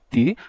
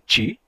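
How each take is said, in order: First: The t before i stays a plain t. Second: The t before i sounds like ch. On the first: "conservando o som original" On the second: "nem todos os brasileiros dizem ti"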